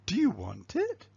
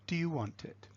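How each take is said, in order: First: The pitch movement is big and exaggerated. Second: The pitch movement is small and natural. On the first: "So you start with exaggerated" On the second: "then you start to normalize it"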